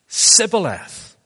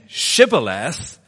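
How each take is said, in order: First: The word begins with an 's' sound. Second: The word begins with a 'sh' sound. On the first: The speaker is an Ephraimite. The speaker calls it wrong. "the Ephraimites couldn't say their SHs" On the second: The speaker is not an Ephraimite. The speaker calls it right. "instead of saying Shibboleth"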